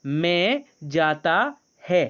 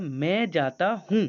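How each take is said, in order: First: Drawn-out wrong sentence; slow, deliberate repeat. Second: Drawn-out correct form; slow corrected sentence. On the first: Teacher repeating the wrong Hindi sentence slowly. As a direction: stretch each word so the class hears it. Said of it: "क्या बोला?". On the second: Teacher voicing the student's correction slowly. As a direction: say the right version slowly and clearly. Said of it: "तो तुमने कहा". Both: Shown as a demonstration.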